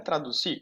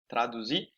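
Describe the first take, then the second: First: "traduzir" with an unvoiced S in place of Z; C sound, incorrect. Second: "Traduzir" with a voiced, buzzing Z; Z sound. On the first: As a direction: say "traduzir" as if spelt with a C. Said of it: "não é traduzir com a C". ("traduzir" com som de C, como S) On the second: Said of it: "eu falo com Z". ("Traduzir" com som de Z) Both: Shown as a demonstration.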